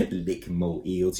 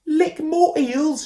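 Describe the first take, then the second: First: Chuckling. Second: High, slow, loud puzzled shout; baffled shout. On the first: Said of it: "chuckled Koo". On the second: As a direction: shout back Lick more eels in confusion. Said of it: "shouted Ben". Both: A narrator's reading.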